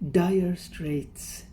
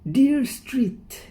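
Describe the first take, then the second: First: The words sound like 'dire straits'. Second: The words sound like 'dear street'. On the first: The speaker calls it right. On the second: The speaker calls it wrong.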